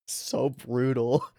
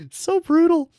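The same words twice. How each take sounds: First: Soft, slow chuckle through the words; laughing. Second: Much higher and louder squeal; excited squeal. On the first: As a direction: laugh it out quietly. Laughing at the brutal line. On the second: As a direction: shriek it out in delight. Reacting to the brutal line. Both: Real, not acted.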